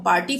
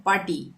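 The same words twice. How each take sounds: First: "पार्टी" with the r sounded before t; r pronounced. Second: "पार्टी" said "paa-tee", no r; silent r. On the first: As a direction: say a clear r in "पार्टी". ("पार्टी" में र साफ़ बोलें) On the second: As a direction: drop the r in "पार्टी". ("पार्टी" को "पाटी" पढ़ें) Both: Shown as a demonstration. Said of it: "हम पार्टी थोड़ी बोलते हैं".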